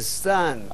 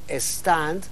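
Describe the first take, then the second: First: The word starts directly with the s sound. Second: The word is lengthened with an added opening vowel. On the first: The word is kept as in English. "en vez de stand del inglés" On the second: The word is adapted to Spanish. "usted perfectamente puede alargar la pronunciación y decir stand"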